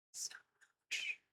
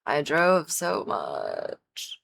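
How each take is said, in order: First: Faint tired whisper. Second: Dragging, tired words; slow and weary. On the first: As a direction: breathe it out, spent. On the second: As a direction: draw it out, worn out. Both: Real, not acted. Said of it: "Today was exhausting".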